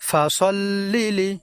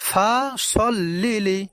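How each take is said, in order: Both takes have the same delivery.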